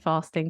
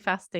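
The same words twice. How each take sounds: First: It is said in a southern British accent. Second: It is said in a northern British accent. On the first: "It's a southern thing to say fasting" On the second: "they'd say fasting in the north of the UK"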